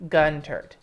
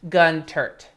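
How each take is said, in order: The two takes are said the same way.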